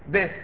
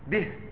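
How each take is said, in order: First: The vowel after the b is short. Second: The vowel after the b is lengthened. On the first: The speaker calls it wrong. "لا تقول به به" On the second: The speaker calls it right. "أشبع الكسر"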